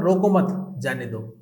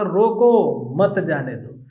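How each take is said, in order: First: The pause comes after 'mat'. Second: The pause comes after 'roko'.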